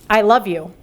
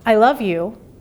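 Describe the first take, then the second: First: The voice sounds flat and unconvincing. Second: The voice sounds warmer and more sincere. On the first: The feeling is not believable. The speaker calls it wrong. "do you believe me? No" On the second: The feeling is more believable. The speaker calls it right. "that helps a little bit because my vocal tone changes"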